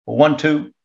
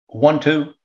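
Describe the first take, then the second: No difference in how they are said.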